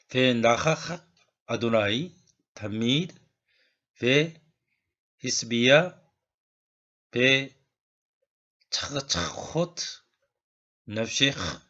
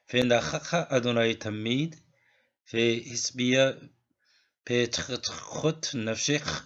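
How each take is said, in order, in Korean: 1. 단어들을 천천히, 또박또박 읽습니다. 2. 단어들을 자연스러운 속도로 읽습니다. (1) "처음에는 좀 천천히 읽고요" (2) "자연스러운 속도로 한번 읽어보도록 하겠습니다"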